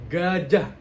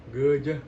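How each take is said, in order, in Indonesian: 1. Kata itu diucapkan dengan jelas. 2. Kata itu diucapkan dengan tidak jelas.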